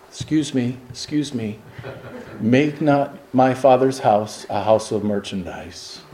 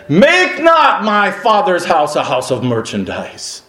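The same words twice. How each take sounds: First: Soft, meek and apologetic; mock-timid Jesus, barely audible; timid polite whisper. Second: Preaching it as Jesus' bold rebuke; commanding rebuke. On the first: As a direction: ask them to leave ever so politely. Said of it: "appropriate times to raise your voice". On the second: Retold or imitated. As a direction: drive them out with authority. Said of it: "He raised his voice".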